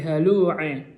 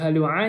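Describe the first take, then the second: First: The final vowel is tilted toward e. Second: The final vowel is a plain open a. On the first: "Diimalahkan, dimiringkan" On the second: "Yang awalnya"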